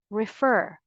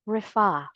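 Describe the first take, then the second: First: "refer" as rih-FUR, final r sounded; American pronunciation. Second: "refer" as rih-FAH, final r dropped; British pronunciation. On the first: Teacher repeating the first option, American "refer", rih-FUR. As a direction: stress the r-coloured second syllable of "refer". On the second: Teacher repeating the second option, British "refer", rih-FAH. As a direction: stress an open FAH ending in "refer". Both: Shown as a demonstration. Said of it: "The second one is the British English pronunciation".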